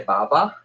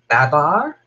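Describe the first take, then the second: First: It is said the Australian way, without final r. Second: It is said the American way, with final r.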